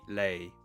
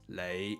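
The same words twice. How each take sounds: First: The syllable is said in tone six. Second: The syllable is said in tone five.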